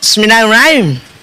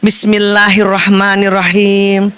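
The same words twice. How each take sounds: First: It is recited quickly and hurriedly. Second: It is recited slowly and carefully. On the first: The recitation does not land properly. The speaker calls it wrong. "baca basmalahnya buru-buru" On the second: The recitation reaches its proper mark. The speaker calls it right. "Itu bisa tepat itu kena"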